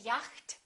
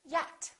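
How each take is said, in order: First: The CH sound is pronounced. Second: The CH sound is silent. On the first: The speaker calls it wrong. "We don't say" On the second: The speaker calls it right. "we say; the silent C H"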